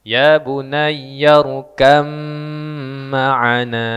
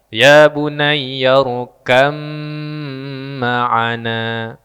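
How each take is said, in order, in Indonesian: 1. Bunyi b menyatu menjadi m yang panjang dan bersengau. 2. Bunyi b menyatu menjadi m yang panjang dan bersengau.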